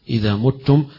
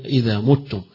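The two takes are said the same way.

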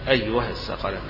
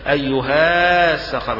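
First: The vowel after the h is short. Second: The vowel after the h is long. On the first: The speaker calls it right. "تحذف الألف تقرى فتحة بس" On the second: The speaker calls it wrong. "مش هتتقرى الألف لالتقاء ساكنين، مش هيتقال"

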